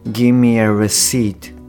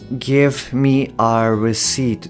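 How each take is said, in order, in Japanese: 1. "give"の末尾のvの音は脱落する。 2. "give"の末尾のvの音は発音する。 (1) "こんな感じで発音するネイティブが多いかな" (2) "ではなくて"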